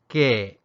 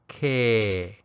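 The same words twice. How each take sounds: First: A short falling tone ending in a catch. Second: A long tone, starting high and dropping low. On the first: "a creaky tone, a short, falling tone that ends with a glottal stop" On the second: "a high tone, and that's the long tone that usually starts with a higher pitch and drops to low"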